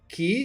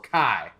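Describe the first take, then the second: First: The name is said with an 'ee' vowel. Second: The name is said with an 'eye' vowel. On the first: "as in, you know, K E Y" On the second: "as in high"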